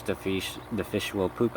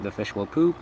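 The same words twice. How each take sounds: First: Filipino accent. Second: Said in the usual way. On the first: Real, not acted. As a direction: slip into a Filipino accent, fish said as "feesh". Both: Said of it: "I'm sorry, Filipino accent".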